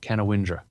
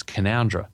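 First: Canawindra said as "ka-na-WIN-dra", spelled out the wrong way; wrong pronunciation. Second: Canowindra said as "ka-NOWN-dra", the correct local way. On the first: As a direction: mispronounce Canawindra as it is spelt. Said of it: "it's Canowindra". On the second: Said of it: "not Canawindra". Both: Shown as a demonstration.

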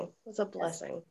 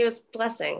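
First: Much softer, heartfelt echo; soft repeat. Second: Said in the usual way. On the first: Real, not acted. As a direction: say it again softly, to yourself. Thanks, softly repeated.

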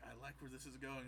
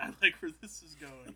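First: Said in the usual way. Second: Louder, pleased reread of "I like where this is going"; pleased surprise on "like"; delighted Palpatine. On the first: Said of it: "Palpatine's just like". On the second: Retold or imitated. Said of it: "he's like".

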